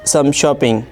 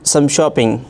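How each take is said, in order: The two takes are said the same way.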